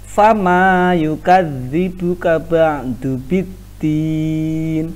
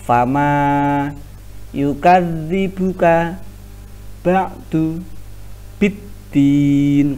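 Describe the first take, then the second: First: The words are run together without pauses. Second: Each word is said separately with short pauses. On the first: "Kalau digabung" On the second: "kalau dibaca per ngano perpenggalan kata"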